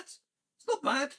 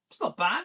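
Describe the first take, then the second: First: High, slow teasing repeat; sing-song self-satisfied gloat; mock sing-song. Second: Said in the usual way. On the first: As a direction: draw it out up high, mocking. Mock repeat of own remark.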